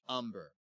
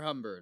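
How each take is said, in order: First: The word begins directly with the vowel sound. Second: The word begins with an audible H sound. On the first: "they just don't say the H" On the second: "if I'm saying that wrong"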